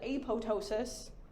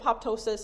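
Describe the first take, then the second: First: The middle p sound is silent. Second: The middle p sound is pronounced. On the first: "like the P silent" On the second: "I've always pronounced it"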